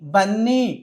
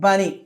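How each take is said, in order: First: The n sound is held long, doubled. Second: The n sound is short, single. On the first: The speaker calls it wrong. "బన్నీ కాదు" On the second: The speaker calls it right. "ఒక్క ఎన్నే తీసుకుంటే సరిపోతుంది"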